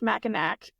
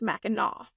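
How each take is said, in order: First: The word ends with a 'k' sound. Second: The word ends with an 'aw' sound. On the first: This is how the spelling suggests it is said. The speaker calls it wrong. "looking like it should be pronounced Mackinac" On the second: This is how the name is actually said. The speaker calls it right. "it is Mackinac"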